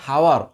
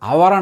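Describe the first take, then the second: First: The word starts with an audible h sound. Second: The word starts with a vowel, no h. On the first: The speaker calls it wrong. "Not హవర్" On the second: The speaker calls it right. "హెచ్ అనేది silent letter, అవర్ అంటాం"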